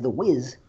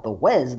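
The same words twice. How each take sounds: First: "Wiz" said with the short vowel of "fizz"; Wiz pronunciation. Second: "Wez" said with the vowel of "fez"; Wez pronunciation. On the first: Host contrasts the nickname, saying "Wiz" like "fizz". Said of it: "do we call him the Wiz". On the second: Host spells out the nickname, saying "Wez" like "fez". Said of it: "do you call him the Wez?". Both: Shown as a demonstration.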